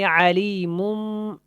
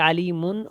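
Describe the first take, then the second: First: The ending n turns into a nasal m. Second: The word ends with a clear n sound. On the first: The speaker calls it right. "ऐसे करके पढ़ेंगे" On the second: The speaker calls it wrong. "ऐसे नहीं पढ़ेंगे"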